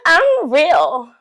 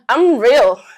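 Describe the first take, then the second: First: It is said in a high-pitched put-on voice. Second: It is said in a normal speaking pitch.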